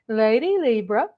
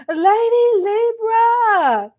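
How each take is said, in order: First: Said in the usual way. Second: "Lady Libra" sung out high and slow, stretched like a fond cry; drawn-out call. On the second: Acted. Shout-out call to a viewer.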